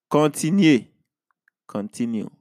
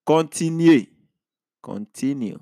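Both takes have the same delivery.

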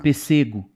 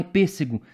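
First: "pêssego" dito "pessêgo", tônica no SE; acento deslocado. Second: "pêssego" com tônica na primeira sílaba; pronúncia correta. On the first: Shown as a demonstration. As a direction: jogue a tônica para o meio em "pêssego". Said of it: "você muda o fonema". ("pêssego" errado de propósito, como "pessêgo") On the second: Retold or imitated. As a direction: marque o PÊS de "pêssego". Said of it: "a chavinha muda". ("pêssego" proparoxítono, como se diz normalmente)

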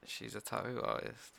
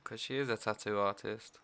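First: Tattoo said as tau, t dropped; her way of saying tattoo. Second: Tattoo with a soft middle t; tattoo said tatu. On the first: Shown as a demonstration. Friend asked to say her job, tattoo as tau. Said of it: "Can you say". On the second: Real, not acted. She repeats her job with clearer tattoo. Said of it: "Why do you say it like that?".

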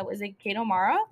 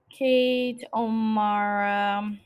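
First: Said in the usual way. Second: "Kate O'Mara" stretched very slowly; drawn-out pondering. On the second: Real, not acted. Trying out the actress's name, "Kate O'Mara" slow and pondering. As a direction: draw out each part of "Kate O'Mara" on a level tone.

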